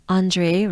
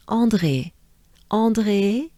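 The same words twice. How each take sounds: First: Said in the usual way. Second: "André" in a French accent, nasal first vowel and French R; French-accented teacher's model of "André". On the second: Shown as a demonstration. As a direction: say "André" the French way, ending on a pure é. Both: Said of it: "But with a French accent".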